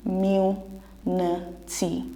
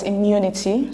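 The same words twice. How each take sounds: First: Syllables pulled apart slowly; careful slow "Immunity" split into syllables; slow syllable demo. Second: Said in the usual way. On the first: Shown as a demonstration. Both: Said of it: "So it's pronounced as immunity".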